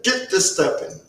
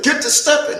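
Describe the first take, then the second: First: Restrained dismissal. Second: High-pitched, brusque dismissal; dismissive order. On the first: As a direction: send him off without raising the voice. Recruiter repeats the order to leave. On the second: Recruiter orders him out the door. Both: Acted.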